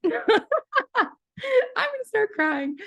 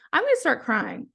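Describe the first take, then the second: First: Higher, slow, half-laughing, half-crying; teary laughing cry. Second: Said in the usual way. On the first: Real, not acted. Moved to tears by the condolence reply, laughing cry. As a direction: voice cracks into happy tears.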